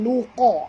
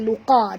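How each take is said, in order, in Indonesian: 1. Bunyi q berat dan tebal. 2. Bunyi q ringan dan tipis. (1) "tapi luqa ya" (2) "jangan baca luqa"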